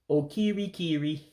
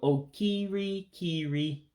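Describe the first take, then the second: First: The word is said at a normal speed. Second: The word is said slowly and drawn out.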